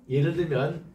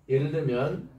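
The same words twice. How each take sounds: No difference in how they are said.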